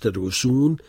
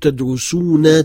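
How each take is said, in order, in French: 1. Le mot se termine sans voyelle finale. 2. Le mot se termine par une voyelle finale. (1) "on ne la prononce pas" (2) "en mettant une voyelle à la fin"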